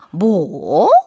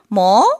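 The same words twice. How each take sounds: First: It sounds doubtful, as if something seems odd. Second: It sounds curious, with the end rising. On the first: The speaker finds something strange or doubtful. "뭔가 궁금하고 의아하고 의심스러울 때는 이상한데?" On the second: The speaker wants to know something. "궁금할 때는 끝꼬리를 올리죠"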